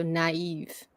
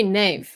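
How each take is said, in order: First: "naive" in two syllables, na-EEV; separate vowels. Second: "knave" as one syllable; one-beat "knave", no break in the vowel; vowels run together. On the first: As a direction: break "naive" between the A and the I. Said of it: "the E as its own syllable". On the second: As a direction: merge the vowels into a single "knave". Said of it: "you don't say knave". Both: Shown as a demonstration.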